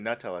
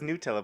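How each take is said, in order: First: The first syllable sounds like the word 'nut'. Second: The first syllable does not sound like 'nut'. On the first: It matches the hazelnut in the spread. "but it should be Nutella because it's ha-" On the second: This is how most people say it. "everyone says Nutella"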